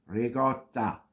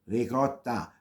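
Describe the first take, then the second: The two takes are said the same way.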